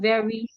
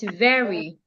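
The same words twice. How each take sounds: First: The word is said on a flat pitch. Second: The word is said with varied pitch. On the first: The speaker calls it wrong. "You're using the flat tone. It's not very" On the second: The speaker calls it right. "it's very"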